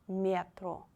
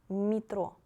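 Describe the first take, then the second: Both takes have the same delivery.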